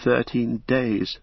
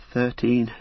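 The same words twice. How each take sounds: First: Slow, hesitant hobbit; frightened hobbit faltering slowly. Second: Hesitant, slightly higher hobbit; frightened hobbit faltering. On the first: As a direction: drag it out unsure. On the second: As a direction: let the word catch. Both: A narrator's reading. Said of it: "faltered Pippin".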